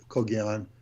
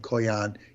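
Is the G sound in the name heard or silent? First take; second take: heard; silent. First: The name is said with a hard G sound. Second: The name is said without a G sound. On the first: "Or you can harden it" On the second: "The G is silent"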